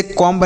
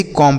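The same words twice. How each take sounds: First: "कॉम्ब" ending in an audible b; wrong pronunciation. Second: "कॉम" ending on m, no b sound; silent b. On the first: Teacher shows students what not to say, wrong pronunciation. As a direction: sound out the b at the end of "कॉम्ब". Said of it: "इसे कॉम्ब नहीं". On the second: Teacher shows students the correct reading, silent b. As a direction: close "कॉम" on the m and drop the b. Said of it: "ऐसे ही कॉम पढ़ेंगे". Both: Shown as a demonstration.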